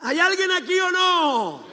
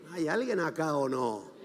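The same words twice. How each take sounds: First: Very high, drawn-out call; challenging shout. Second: Lower, soft check for response; quiet challenge. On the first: Preacher checking that anyone is listening, challenging shout. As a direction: holler to wake up the congregation. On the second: Preacher checking the congregation is still there, quiet challenge. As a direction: drop the voice and ask the room. Same challenge, now said low. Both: Real, not acted.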